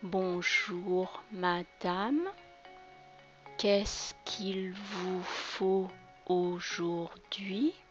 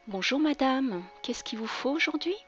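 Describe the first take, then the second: First: It is said more slowly. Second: It is said at normal speed.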